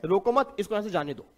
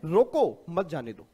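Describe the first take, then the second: First: "रोको मत" grouped together, then "इसको यहां से जाने दो"; pause after मत. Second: Punched "रोको", a break, then "मत जाने दो"; pause after रोको. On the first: Teacher voicing one child's reading of the line, pause after "मत". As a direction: break after "मत" and let the rest fall away. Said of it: "इसका मतलब ये है". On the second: Teacher voicing another child's contrary reading, pause after "रोको". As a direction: hit "रोको", stop, then drop into "मत जाने दो". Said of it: "नहीं, नहीं, इसका मतलब तो ये लग रहा है". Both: Shown as a demonstration.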